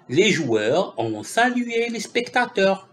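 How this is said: The voice falls at the end like a statement. It is a plain statement. The speaker calls it right. "C'est une phrase affirmative"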